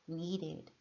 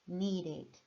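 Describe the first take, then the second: No difference in how they are said.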